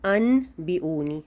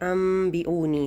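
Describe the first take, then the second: First: The nasal before 'b' is an n sound. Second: The nasal before 'b' is an m sound. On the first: "असल में क्या था" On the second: "जैसे ये अम बी ऊनी है"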